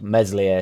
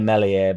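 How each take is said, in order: First: The name is said with an S sound. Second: The name is said without an S sound. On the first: This is a joking way to say the name. "he's called Meslier, silent S" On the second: This is the proper way to say the name. "I know how to say Melier"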